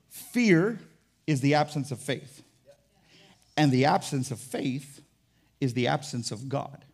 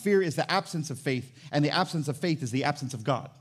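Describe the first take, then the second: First: It is said more slowly. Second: It is said at a normal pace.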